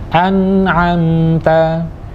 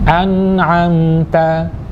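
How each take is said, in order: The two takes are said the same way.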